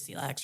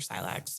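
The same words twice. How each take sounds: First: The word is pronounced the French way. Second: The word is pronounced the English way.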